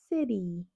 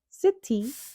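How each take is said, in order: First: The middle consonant is a soft d sound. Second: The middle consonant is a crisp t sound. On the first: The speaker calls it right. "el sonido de la T suena como una D suave" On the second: The speaker calls it wrong. "no dirías city"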